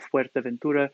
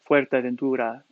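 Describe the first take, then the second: First: The vowels are short and sharp. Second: The vowels are drawn out and emphasized. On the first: "less sharp of" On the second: "more um, ... with a Castilian accent, it would emphasize the vowels"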